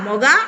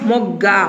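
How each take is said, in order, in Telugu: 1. g ధ్వని చిన్నగా, ఒకటిగా ఉంటుంది. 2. g ధ్వని ఎక్కువసేపు, ఒత్తుగా ఉంటుంది. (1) "ఒత్తు లేకపోతే ఒకలాగా చదువుతాం" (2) "ఒత్తు ఇచ్చినప్పుడు ఒత్తి చదువుతున్నాం"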